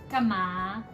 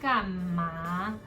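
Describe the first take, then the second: First: The word is said quickly and gently. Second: The word is said slowly and drawn out. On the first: It is a casual, friendly response. The speaker calls it right. "Quickly like 干嘛 to respond to your friends" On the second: The speaker is impatient or unhappy. The speaker calls it wrong. "slowly 干嘛 will sound very impatient or unhappy"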